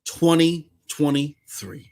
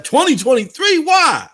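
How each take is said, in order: First: Said in the usual way. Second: High incredulous mock question; mocking doubter. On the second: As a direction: mimic the scoffers, rising disbelief. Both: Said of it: "Remember when the people was like".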